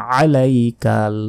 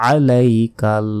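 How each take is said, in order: No difference in how they are said.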